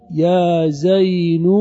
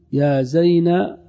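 First: "زين" drawn out as "zaynu"; slow "zaynu" for "زين", ending on "u"; damma moved back. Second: "زينب" said slowly as "zayna", no b; slow "zayna" for "زينب", ending open on "a"; last letter dropped. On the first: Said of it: "وتنقل هذه الضمة إلى ما قبل". (نطق "زين" بضم النون مع التمهّل) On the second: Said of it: "ويبقى كل شيء بعد ذلك". (نطق "زينب" بحذف الباء وفتح النون) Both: Shown as a demonstration.

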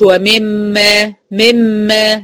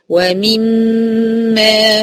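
First: "ومما" slackened to "wa-mem-ma"; incomplete kasra. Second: "ومما" as clear "wa-mim-ma", very slow; full kasra. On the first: Teacher shows what to avoid, "ومما" as slack "mem-ma". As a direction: loosen the "i" in "مما" toward "e". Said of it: "ما أقولش". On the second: Teacher models correct reading, "ومما" with full kasra. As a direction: hold a long hum after a true "mi" in "ومما". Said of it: "أتم كسر الميم". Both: Shown as a demonstration.

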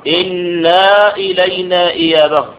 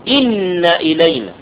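First: إنا read with a long aa after the nun; slow wrong version: إنا stretched into inaa. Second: إن with a doubled nun and a short fatha, inna, no long vowel; slow, careful إن, short open nun; correct reading. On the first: Teacher showing students the wrong reading, إنا with long aa. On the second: Teacher giving students the right reading, إن short and clipped. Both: Shown as a demonstration. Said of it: "خطأ".

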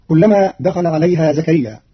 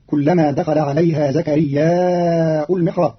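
First: زكريا short, no hamza; Hafs reading. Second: زكرياء lengthened with hamza u, slow; slow zakariyya'u al-mihrab; Qalun reading. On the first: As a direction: end زكريا short and open. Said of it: "قرأ قالون كلمة زكريا بالمد مهموزا". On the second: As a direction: draw out زكرياء then hamza. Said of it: "بالمد مهموزا مع الرفع". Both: Shown as a demonstration.

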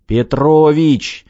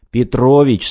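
First: Slow, louder, higher call of his name; drawn-out rousing shout; urgent call. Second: Louder, quicker call of the name; urgent plea. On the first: Director shakes his slacking partner awake, drawn-out shout. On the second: Director rousing his slacking foreman, firm louder call. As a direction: snap him out of it. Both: A narrator's reading.

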